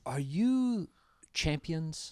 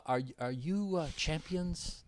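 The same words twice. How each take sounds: First: Put-on light Hawaiian accent, soft and trailing off; quiet Hawaiian accent, fading on champions; Hawaiian accent impression. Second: Put-on soft Hawaiian accent, slow and hesitant; quiet Hawaiian accent, slow on champions; Hawaiian accent impression. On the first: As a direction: imitate a Hawaiian fighter asking shyly. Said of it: "he's got that Hawaiian accent". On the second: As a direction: imitate a shy Hawaiian fighter, drawing out champions. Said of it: "Like that".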